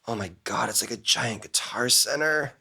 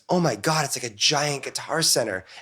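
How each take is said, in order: First: It sounds tired and worn out. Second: It sounds excited and full of wonder. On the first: The place now feels exhausting after many years. "after you've been doing this for a while" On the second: The place still feels new and thrilling. "in your first year"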